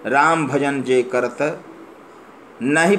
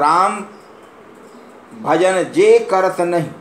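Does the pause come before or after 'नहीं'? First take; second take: before; after. First: The pause falls before the word 'नहीं'. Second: The pause falls after the word 'नहीं'. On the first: The devotee does not fear worldly bonds. "Ram भजन जे करत, उसके बाद विराम है" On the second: The non-devotee fears worldly bonds. "और राम का भजन जो नहीं करता है"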